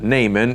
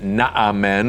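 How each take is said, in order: First: The name is said the familiar everyday way. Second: The name is said the older, ancient way. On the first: This is how people say it today. "we pronounce it Naaman" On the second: This is how people said it in ancient times. "In their day, they would have pronounced it Naaman"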